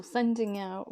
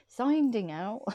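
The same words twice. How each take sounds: First: Said in the usual way. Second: Real slip into a West Country accent, "sending" as "soinding". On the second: Real, not acted. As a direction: let "sending" slide into a broad regional "soinding". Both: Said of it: "My accent changes as well".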